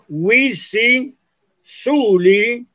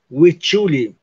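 First: The two words are separate, each with s. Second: The words run together with a ch sound. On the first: "cuando una palabra termina con S y la palabra que sigue empieza con S" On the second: "la doble S, que suena como che"

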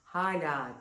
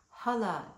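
First: Both a vowels have circumflex quality, long and softened. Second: Both a vowels are plain, without circumflex quality. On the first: "her iki tarafta da hem H'nin önünde hem L'den sonra şapkalı A" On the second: "hala dediğimde şapkasız"

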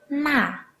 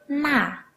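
No difference in how they are said.

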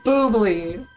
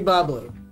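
First: The first syllable has a long 'oo' vowel. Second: The first syllable has a short 'uh' vowel. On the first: The name is a nod to a singer's name. "I call it Boobly. Because it's [name]" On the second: The name is the ordinary word for fizzy. "if it's actually Bubbly"

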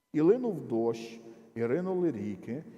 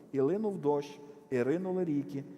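Both takes have the same delivery.

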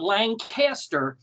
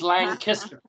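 First: The stress is on the second syllable. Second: The stress is on the first syllable. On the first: The speaker calls it wrong. "it's not Lancaster, ... no emphasis on the cast" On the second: The speaker calls it right. "it is Lancaster. ... emphasis on the Lang"

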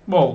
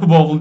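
First: The vowel is drawn out and the w is swallowed. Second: The word is said directly with a clear w-sound. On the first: The speaker calls it right. "O W daha doğrusu yutuluyor. Biraz O uzuyor" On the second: The speaker calls it wrong. "Bowl değil"

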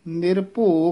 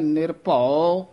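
First: The word ends with an o vowel. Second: The word ends with an au vowel. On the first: The speaker calls it wrong. "कई निरभो कह जाते हैं" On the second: The speaker calls it right. "यदा उच्चारण है"

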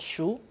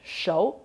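First: The word is pronounced shu. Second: The word is pronounced shou. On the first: The character forms part of a word. "When used to form a word, is pronounced as shu" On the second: The character stands alone. "the character when used alone is pronounced as shou"

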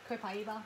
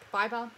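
First: The middle syllable sounds like 'pie'. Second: The middle syllable sounds like 'bee'. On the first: The speaker calls it right. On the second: The speaker calls it wrong.

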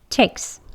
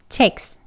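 First: The k flows smoothly into the s. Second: The k flows smoothly into the s.

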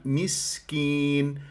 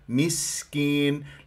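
No difference in how they are said.

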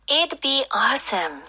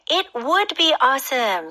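First: 'Would' is contracted onto 'it'. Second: 'Would' is said as a full word. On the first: "앞부분에 It'd be awesome이라고 읽었는데요" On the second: "이거는 조심하셔야 돼요"

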